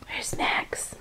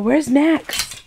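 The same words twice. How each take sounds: First: Whisper. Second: Said in the usual way. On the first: Real, not acted. Whispering to the cat.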